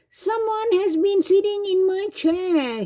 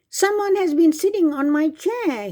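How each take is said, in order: First: It is cried in a small Baby Bear voice. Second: It is bellowed in a big Papa Bear voice.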